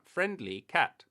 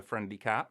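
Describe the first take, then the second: First: FRIENDLY CAT drawn out high and loud; emphatic game bonus callout. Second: Said in the usual way. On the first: Pretend. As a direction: punch FRIENDLY and CAT slowly, pitch swooping up. Repeats the find like a game bonus.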